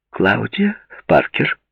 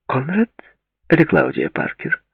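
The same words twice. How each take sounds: First: Slow, patient repeat. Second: Said in the usual way. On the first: A narrator's reading. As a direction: say her name again slowly. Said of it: "терпеливо повторила она".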